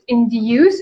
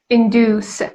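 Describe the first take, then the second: First: It is said with a British pronunciation. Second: It is said with an American pronunciation. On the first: "British people pronounce it induce" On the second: "Americans induce"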